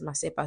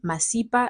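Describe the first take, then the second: First: The middle vowel sounds like 'eh'. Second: The middle vowel sounds like 'ee'. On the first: It means excrement. The speaker calls it wrong. "rude people, say Masepa, which means shit" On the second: It means knowledge or wisdom. The speaker calls it right. "my surname, Masipa"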